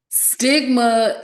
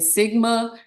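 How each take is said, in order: First: The T sound after the S is pronounced. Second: The T sound after the S is dropped. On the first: It refers to stigma around emotional well-being. The speaker calls it right. "I really do have to pronounce the T" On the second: It sounds like a sorority or fraternity name. The speaker calls it wrong. "otherwise I'm saying sigma"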